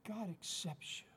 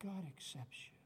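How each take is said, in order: First: Said in the usual way. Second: Soft echo. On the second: Acted. Repeated reassurance, softer echo.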